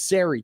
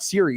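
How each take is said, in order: First: The name is said with a changed vowel. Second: The name is said in its usual form. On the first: The speaker calls it wrong. "it's Sari to him" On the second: The speaker calls it right. "It's not Siri"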